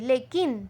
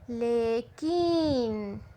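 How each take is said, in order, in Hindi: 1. दूसरे अक्षर में ह्रस्व स्वर है। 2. दूसरे अक्षर में दीर्घ स्वर है। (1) "ह्रस्व करते हैं, मतलब बहुत ही छोटा करते हैं" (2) "क को बड़ी की मात्रा जब देंगे हम तो उसका दीर्घ उच्चार होता है"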